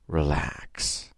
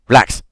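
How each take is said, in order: First: The word is said in a calm, soothing way. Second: The word is said in a tense, abrupt way. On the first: The listener is invited to relax. The speaker calls it right. "instead of saying" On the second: The delivery works against relaxing. The speaker calls it wrong. "this man wasn't very good"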